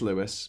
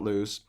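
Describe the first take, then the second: First: The name is said with two syllables. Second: The name is said with one syllable. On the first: The speaker calls it right. "It is Lewis" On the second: The speaker calls it wrong. "not lose"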